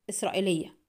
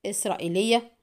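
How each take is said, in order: First: Prompt, quiet reply with falling end; quick answer. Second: Mildly incredulous echo, rising questioningly; astonished disapproval. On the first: Customer answering the forger's question, promptly. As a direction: answer at once, softly closed off. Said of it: "أتاه الجواب في سرعة". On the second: Forger echoing the customer's answer, astonished and disapproving. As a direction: repeat it as a disbelieving question. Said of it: "في دهشة بالغة وهو يردد مستنكرا". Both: A narrator's reading.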